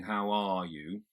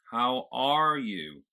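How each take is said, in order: First: Said in the usual way. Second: Slow, louder General American "How are you?"; American accent. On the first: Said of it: "So instead of saying". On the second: Shown as a demonstration. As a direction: stretch ARE with an American r, open at the back. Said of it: "I've got this sort of opening right at the back".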